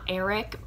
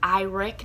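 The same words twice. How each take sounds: First: The name begins without an 'eye' sound. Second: The name begins with an 'eye' sound. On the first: The speaker calls it wrong. "not Eric" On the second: The speaker calls it right. "I now know it's pronounced Eric"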